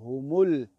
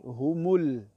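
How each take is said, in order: No difference in how they are said.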